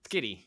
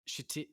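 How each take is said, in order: First: The name begins with a hard 'sk' sound. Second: The name begins with a soft 'sh' sound. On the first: The speaker calls it right. "we'll go hard, hard uh, ch" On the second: The speaker calls it wrong. "Can't can't be pronounced that way"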